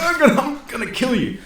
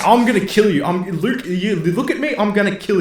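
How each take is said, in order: First: High threat broken by laughter; laughing mock threat. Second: Higher, louder hammed-up threat; mock furious threat. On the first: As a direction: giggle through Han's threat. Repeats Han's threat, laughing. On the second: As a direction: play Han spitting a threat while being choked. Han threatens Luke while choked.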